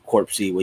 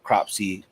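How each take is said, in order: First: The name begins with a 'cor' sound. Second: The name begins with a 'cro' sound. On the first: The speaker calls it wrong. "I was pronouncing that wrong. I was trying to pronounce Corpsey" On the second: The speaker calls it right. "Cropsey is definitely what they had"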